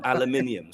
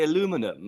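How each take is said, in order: First: "aluminium" said the British way, with five syllables, al-u-MIN-i-um. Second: "aluminum" said the American way, with four syllables, a-LU-mi-num. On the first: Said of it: "Mummy gets so upset, not aluminium". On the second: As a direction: say "aluminum" with the stress on LU, American style. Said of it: "I say aluminum". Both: Shown as a demonstration.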